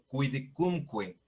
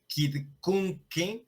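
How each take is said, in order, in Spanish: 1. La qu se pronuncia como kw. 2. La qu se pronuncia como una k simple. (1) "sino quidcunque" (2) "No se diría quidcunque"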